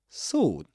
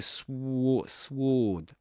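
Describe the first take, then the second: First: There is no w sound after the s. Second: A w sound is pronounced after the s. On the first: The speaker calls it right. "This long O sound without pronouncing the W" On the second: The speaker calls it wrong. "You don't say sw sword"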